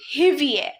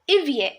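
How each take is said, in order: First: The word begins with an audible h sound. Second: The word begins directly with a vowel sound. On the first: The speaker calls it wrong. "I'm not pronouncing it hivier" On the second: The speaker calls it right. "I'm pronoun- pronouncing it ivier. H is silent"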